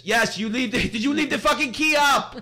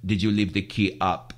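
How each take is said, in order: First: High mock yell, laughing through it; angry Greek shopkeeper. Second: Put-on low, easy Greek accent question; calm question. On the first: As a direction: ham up the furious scooter guy. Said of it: "He says". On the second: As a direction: ask it casually, no anger yet. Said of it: "With the cigarette".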